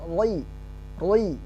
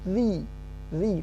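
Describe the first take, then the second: First: The r is said heavy and thick. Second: The r is said light and thin. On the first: The speaker calls it wrong. "bukan roi roi" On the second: The speaker calls it right. "tapi zi zi tipis"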